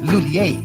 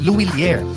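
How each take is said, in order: First: The name is pronounced the English-speaker way. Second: The name is pronounced the Filipino way. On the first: "English speakers commonly pronounce it as" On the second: "for Filipinos, mas madaling ibigkas ang"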